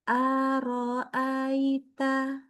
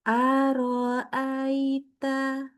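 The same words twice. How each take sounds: The two takes are said the same way.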